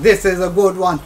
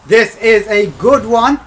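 First: Said in the usual way. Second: Louder, slower, building hope; will the pack to be good; drawn-out excited hope. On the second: Real, not acted.

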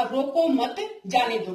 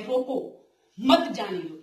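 First: Slow रोको मत as one group, then जाने दो; pause after मत. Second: रोको alone, gap, then मत जाने दो; slow, break the phrase straight after रोको; pause after रोको. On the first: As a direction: keep मत tied to रोको, break after मत. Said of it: "भी रोकना नहीं है इसको". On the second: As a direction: tie मत to जाने दो, leaving रोको on its own. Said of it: "अगर इसमें थोड़ी दूरी आ जाए". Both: Shown as a demonstration.

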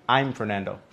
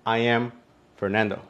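First: "I'm" run together as one word; short form "I'm" for "I am"; contracted I'M. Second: "I am" said as two separate words; full form "I am", no contraction; uncontracted I AM. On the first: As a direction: say "I'm" as a single syllable. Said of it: "puedo decir una palabra y es I'm". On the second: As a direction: keep "I" and "am" apart, unhurried. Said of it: "dos palabras". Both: Shown as a demonstration.

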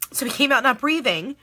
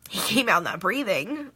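First: Said in the usual way. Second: Choked up, lower and halting; real tearful. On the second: Real, not acted. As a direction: push the words out through tears. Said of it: "I can't believe I'm crying".

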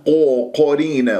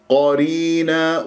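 First: قرينا begun as "qo", lips rounded; faulty o-coloured قرينا; wrong rounded qaf. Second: Heavy open "qaa" in قرينا; slow open-vowelled قرينا; unrounded qaf. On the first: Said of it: "وهذا خطأ". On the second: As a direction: say قرينا with full ق and no lip rounding. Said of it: "ألا أكور الشفاه". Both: Shown as a demonstration.

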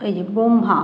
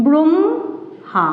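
First: Said in the usual way. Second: ব্রহ্মা drawn out very slowly as bromha, m before h; slow demo pronunciation. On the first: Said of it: "কিন্তু উচ্চারণটা যখন হচ্ছে". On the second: Shown as a demonstration. Teacher to pupils, slowly modelling the sound of ব্রহ্মা. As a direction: stretch ব্রহ্মা so the m comes before the h. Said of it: "দেখো কি বলছি".

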